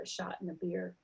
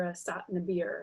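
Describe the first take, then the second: First: Said in the usual way. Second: "sot" with plain s instead of sh; "sot" starting on a hissed s, as older speakers do. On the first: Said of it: "or a shot and a beer". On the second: Shown as a demonstration. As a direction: say "shot" as "sot". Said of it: "S is substituted for S H".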